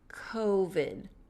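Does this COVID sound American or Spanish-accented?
American. The first vowel is American, with smaller lips. "notice my lips get smaller. Co. It's the O"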